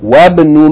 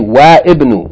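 First: The i is dropped and the words join. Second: The i of ibn is pronounced separately. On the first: The speaker calls it right. "you're going to just join it together" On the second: The speaker calls it wrong. "we're not going to say wa ibn"

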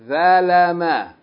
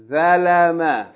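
The two takes are said the same way.

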